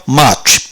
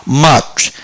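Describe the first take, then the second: The two takes are said the same way.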